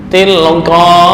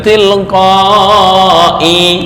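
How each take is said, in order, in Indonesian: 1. Kata itu berakhir pada bunyi a biasa. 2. Kata itu berakhir dengan bunyi i yang ditambahkan. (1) "ini ketika waqaf di sini" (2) "bukan tilqai, salah"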